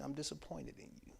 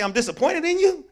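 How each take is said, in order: First: Disappointed. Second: Higher, louder, heavy disappointment; disappointed. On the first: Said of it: "I don't respond that I'm mad at you. I say". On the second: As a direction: land the disappointment hard and loud. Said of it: "But when somebody say". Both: Retold or imitated.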